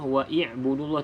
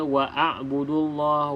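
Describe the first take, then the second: First: An i vowel comes between wa and b. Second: An a vowel comes between wa and b. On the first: "tidak perlu kita baca" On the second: "tidak perlu kita baca"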